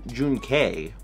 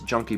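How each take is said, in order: First: The first syllable has a long 'oo' vowel. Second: The first syllable has a short 'uh' vowel. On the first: "you could pronounce it like June, June K" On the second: "I assumed that it was Junkie"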